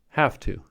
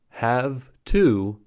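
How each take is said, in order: First: The final consonant of 'have' is a voiceless f. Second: The final consonant of 'have' is a voiced v. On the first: "transformed to a voiceless consonant" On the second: "originally voiced"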